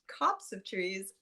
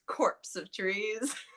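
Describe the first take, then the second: First: The first word is said without an r sound. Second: The first word is said like 'corpse'. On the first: The speaker calls it right. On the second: The speaker calls it wrong.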